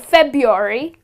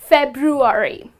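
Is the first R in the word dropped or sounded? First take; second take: dropped; sounded. First: The first R sound is left out. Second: The first R sound is clearly pronounced. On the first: The speaker calls it wrong. "people end up saying February" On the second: The speaker calls it right. "you pronounce the letter R"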